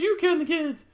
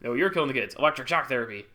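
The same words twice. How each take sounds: First: High, loud mock accusation; Sarah. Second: Louder accusation in natural pitch; interrogating doctor brother. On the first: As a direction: fire it back in a put-on high voice. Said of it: "And she's like". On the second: Acted. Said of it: "interrogated by her doctor brother".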